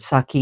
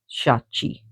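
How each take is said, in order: First: The name starts with a plain 's' sound. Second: The name starts with an 'sh' sound. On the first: The speaker calls it wrong. "some people uh, pronounce it Saki and it's wrong" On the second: The speaker calls it right. "It's Shachi"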